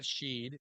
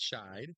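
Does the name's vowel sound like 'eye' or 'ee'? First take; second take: ee; eye. First: The vowel sounds like 'ee'. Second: The vowel sounds like 'eye'. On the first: The speaker calls it wrong. "not Sheed" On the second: The speaker calls it right. "I think it's Shide"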